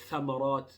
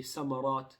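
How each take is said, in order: First: The word begins with a th sound. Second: The word begins with an s sound. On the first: The speaker calls it right. "the tha has to be different from the sin" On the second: The speaker calls it wrong. "we can't say samarat"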